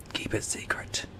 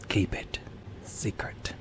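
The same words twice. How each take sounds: First: Hushed secret whisper. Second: Softer, breathy repeat; whispering. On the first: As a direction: breathe it like a secret. Conspiratorial aside to viewers. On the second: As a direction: whisper it again, fainter. Repeats the secret aside. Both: Pretend.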